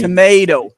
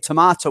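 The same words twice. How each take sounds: First: It is said in an American accent. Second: It is said in a British accent. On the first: "They say" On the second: "we say tomato in English"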